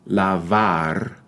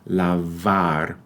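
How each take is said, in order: The two takes are said the same way.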